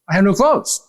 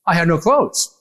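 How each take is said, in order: First: Pitched up, rising at the end; insistent pleading. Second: Said in the usual way. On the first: Retold or imitated. Repeating it to the doctor, pitched-up plea. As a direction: plead again, higher and more urgent. Telling the doctor all night.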